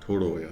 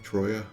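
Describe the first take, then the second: First: A vowel is sounded between the T and R. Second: The T and R run together with no vowel. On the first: "There's an O in there" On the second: "without the extra O in there"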